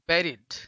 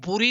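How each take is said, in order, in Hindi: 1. पहला स्वर 'bed' जैसा बोला जाता है। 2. पहला स्वर 'put' जैसा बोला जाता है। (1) "ये उच्चारण रहता है" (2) "बुरी नहीं होता है"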